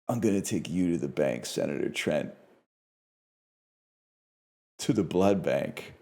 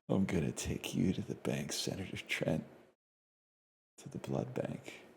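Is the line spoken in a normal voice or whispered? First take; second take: normal; whispered. First: The line is spoken in a normal voice. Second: The line is spoken in a whisper. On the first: The speaker calls it wrong. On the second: The speaker calls it right.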